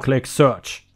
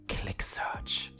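First: It is said in a normal speaking voice. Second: It is said in a soft, seductive whisper. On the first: "Regular voice" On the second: "Seductive whisper right in my effing ear"

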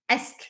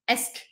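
Both takes have the same delivery.

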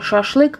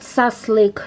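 First: The word is said with sh sounds. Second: The sh sounds are replaced by s sounds. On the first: This is the standard Russian pronunciation. "вы помните, что это шашлык" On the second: This is how Finns pronounce the word. "финны не могут выговорить букву «ш», и они говорят «саслык»"

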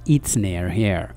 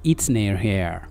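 Both takes have the same delivery.

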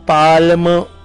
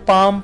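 First: The L sound is pronounced in the word. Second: The L sound is silent in the word. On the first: The speaker calls it wrong. "पाल्म इस तरह से नहीं पढ़ते" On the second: The speaker calls it right. "बल्कि उसे पाम पढ़ते हैं"

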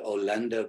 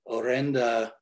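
First: The word is said with an L sound. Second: The word is said with an R sound.

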